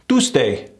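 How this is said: The oo vowel is short and clipped.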